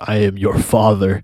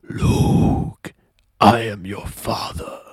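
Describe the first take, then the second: First: It is said in his normal voice. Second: It is said in a Darth Vader voice.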